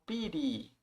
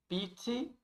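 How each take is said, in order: First: "pity" with a flapped T, like "piry"; American-style pity. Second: "pity" with a crisp, unflapped T; British-style pity. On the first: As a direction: soften the T in "pity" to a quick tap. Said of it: "mais a pronúncia americana". ("pity" à americana, com T soando como R) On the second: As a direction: sound the T clearly in "pity", British way. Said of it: "a pronúncia mais inglesa, britânica". ("pity" à britânica, com T bem marcado) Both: Shown as a demonstration.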